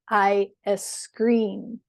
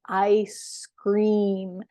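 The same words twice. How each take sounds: First: A short e vowel comes before scream. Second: The word scream starts directly with s.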